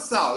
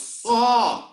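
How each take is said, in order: First: The vowel glides like the 'ow' in sow. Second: The vowel is an open 'aw' sound. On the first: The speaker calls it wrong. "It's not sow" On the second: The speaker calls it right. "it's saw"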